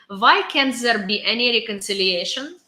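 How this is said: It is said in a put-on Russian accent.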